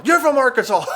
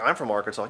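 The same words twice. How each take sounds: First: High, loud exclamation bursting into laughter; mock hilarity. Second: Said in the usual way. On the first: Club owner finding Arkansas hilarious, loud mock guffaw. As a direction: imitate someone cracking up loudly. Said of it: "He thought it was the funniest thing".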